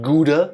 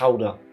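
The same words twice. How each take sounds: First: The G is a hard stop sound. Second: The G is a raspy throat sound. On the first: The speaker calls it wrong. "Not Gouda" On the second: The speaker calls it right. "pretend you try to get phlegm out of your throat"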